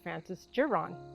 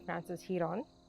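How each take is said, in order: First: The name is said with an English accent. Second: The name is said with a Spanish accent. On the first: "without a hint of any type of Spanish accent attached to that name" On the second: "I did not say Frances Giron"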